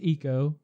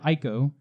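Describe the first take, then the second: First: The first vowel sounds like 'ee'. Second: The first vowel sounds like 'eye'. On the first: This is the official pronunciation. "Technically pronounced Eco" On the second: This is the speaker's preferred pronunciation. "I prefer Ico"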